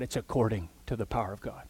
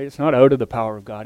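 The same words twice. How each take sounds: First: "according" stressed, quick and softer. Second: "out" stressed, quick. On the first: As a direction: lean on "according". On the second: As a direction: land hard on "out". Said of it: "not out of, according to". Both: Shown as a demonstration.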